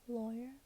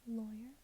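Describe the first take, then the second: The two takes are said the same way.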